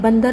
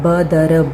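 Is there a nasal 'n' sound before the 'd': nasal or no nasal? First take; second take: nasal; no nasal. First: It is said with a nasal before 'd'. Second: It is said with no nasal before 'd'. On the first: The speaker calls it right. "बंदर होता है" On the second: The speaker calls it wrong. "बदर तो होता नहीं"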